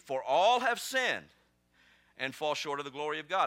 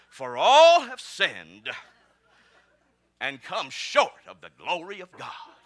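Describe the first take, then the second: First: It is read in a plain, ordinary tone. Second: It is read in a solemn, preachy tone.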